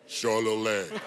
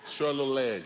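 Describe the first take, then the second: First: It is said in a stage performance voice. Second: It is said in a normal voice.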